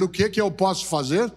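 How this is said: It sounds willing and ready to help.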